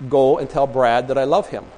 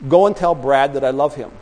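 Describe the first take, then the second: No difference in how they are said.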